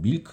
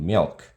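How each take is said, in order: First: It is said with Korean syllables and vowels. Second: It is said with an American English vowel. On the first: "한국 사람이면 밀크라 그러잖아요" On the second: "영어에서는 밀크를 R 발음을 해줘야 되거든요. ... 이렇게 발음을 한단 말입니다"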